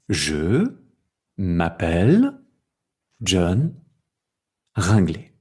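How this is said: The words are separated by small gaps. This is how the written language looks. "ce sont des mots et des espaces"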